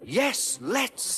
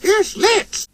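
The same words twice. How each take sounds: First: Very high, eager cry; excited high engine. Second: Highest squeaky eager cry; excited squeal. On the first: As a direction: answer with eager glee. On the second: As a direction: squeal yes with delight. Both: A narrator's reading. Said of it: "said Percy excitedly".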